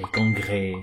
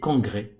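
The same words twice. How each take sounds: First: The final vowel is drawn out long. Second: The final vowel is kept short. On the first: The speaker calls it wrong. "on va pas rallonger le et" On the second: The speaker calls it right. "c'est congrès, tout simplement"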